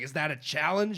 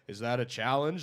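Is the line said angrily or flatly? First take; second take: angrily; flatly. First: It is said angrily, with a snarl. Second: It is said flatly, sounding tired.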